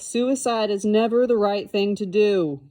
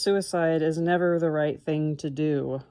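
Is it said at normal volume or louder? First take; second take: louder; normal. First: It is said noticeably louder. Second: It is said at normal volume.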